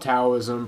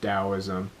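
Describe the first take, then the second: First: It begins with a hard T sound. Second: It begins with a soft D sound.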